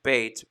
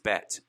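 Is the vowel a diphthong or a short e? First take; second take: diphthong; short e. First: The vowel glides like 'ay' in 'bait'. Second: The vowel is a short 'e' as in 'bet'. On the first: It follows the written spelling of the letter name. "I tend to pronounce it the way it's spelled, which is more like Beit" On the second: It keeps the letter apart from the word for 'house of'. "you'll hear Israelis say bet"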